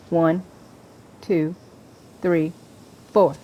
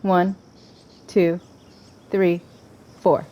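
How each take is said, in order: Both takes have the same delivery.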